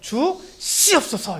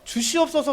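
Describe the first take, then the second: First: The s sounds are strongly tensed and forceful. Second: The s sounds are soft and plain. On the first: A forceful request meant to prove strong faith. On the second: An ordinary request that shows little faith.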